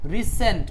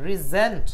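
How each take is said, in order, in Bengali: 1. মাঝের ব্যঞ্জনধ্বনিটি s ধ্বনি। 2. মাঝের ব্যঞ্জনধ্বনিটি z ধ্বনি। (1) "সেন্ট উচ্চারণ করি, রিসেন্ট উচ্চারণ করি, তাহলে পুনরায় পাঠানো" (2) "সেন্ট উচ্চারণ না করে আপনারা জেন্ট উচ্চারণ করবেন"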